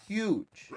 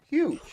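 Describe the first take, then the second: First: Said in the usual way. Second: Emphatic Huge, pitched way up; stressed repeat. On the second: Shown as a demonstration. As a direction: punch Huge up high.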